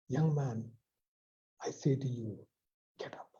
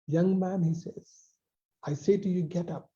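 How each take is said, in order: First: Softly spoken, fading to near silence; hushed command. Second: Lifted command. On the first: Preacher voicing Jesus to the dead boy, hushed command. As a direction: say it low, as Jesus at the coffin. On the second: Preacher repeating Jesus's call to the young man, raised firm command. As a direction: call him up with authority. Jesus's words quoted again. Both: Acted.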